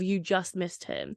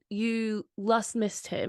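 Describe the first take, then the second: First: The word 'just' starts with a J sound. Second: The word 'just' starts with an L sound. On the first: This is the usual pronunciation. "instead of you just missed him" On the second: This imitates one man's unusual pronunciation. "J's would come out as L's"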